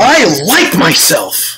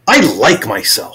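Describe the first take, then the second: First: It is said with high intensity. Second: It is said with medium intensity.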